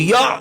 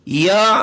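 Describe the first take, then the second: First: The ain is cut off with an abrupt jerk. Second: The ain is released softly without any jerk. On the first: The speaker calls it wrong. "ऐसे नहीं करना" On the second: The speaker calls it right. "बड़ी नरमी के साथ"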